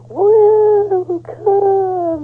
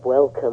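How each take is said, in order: First: It is said in a very high-pitched voice. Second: It is said in a normal voice.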